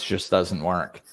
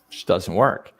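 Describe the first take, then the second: First: Said in a calm, firm, apologetic tone. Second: Said in a harsh, rude, attacking tone. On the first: The boundary is about oneself. The speaker calls it right. "That's firm" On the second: The remark is aimed at someone else. The speaker calls it wrong. "That's rude"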